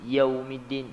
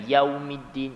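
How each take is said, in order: Both takes have the same delivery.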